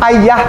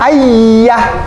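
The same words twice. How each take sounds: First: The y is short, a single consonant. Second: The y is held long, a doubled consonant. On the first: "A Y A H" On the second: "A Y Y A H"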